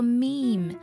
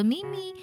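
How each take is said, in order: First: The word is said as one syllable. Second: The word is said as two syllables. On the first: The speaker calls it right. "它读作meme" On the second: The speaker calls it wrong. "不要读作meme"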